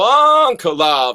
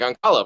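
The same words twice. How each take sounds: First: The name is said slowly and deliberately. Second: The name is said quickly and rushed. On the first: The speaker calls it right. "I got to go Ankalaev" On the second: The speaker calls it wrong. "when I try to say it quickly"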